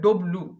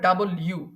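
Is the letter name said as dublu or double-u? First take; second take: dublu; double-u. First: It is said short, as dublu. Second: It is said in full, as double-u. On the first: The speaker calls it wrong. "এটাকে আমরা পড়ি ডব্লু" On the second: The speaker calls it right. "কিন্তু এটা হবে ডাবল ইউ"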